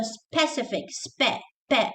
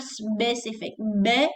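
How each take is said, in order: First: "specific" with P straight after S; clear SP. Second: "specific" said as "sbecific"; voiced B after the S in "specific", then "be". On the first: Teacher explaining to students, clear P in "specific". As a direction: isolate "spe" and "pe" with a clean P. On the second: Teacher showing the mistake, B in "specific". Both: Shown as a demonstration. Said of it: "not specific".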